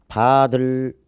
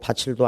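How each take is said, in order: First: The second syllable starts with a d sound. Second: The second syllable starts with a ch sound. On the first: "바들도 아니고" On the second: "바칠도 아닙니다"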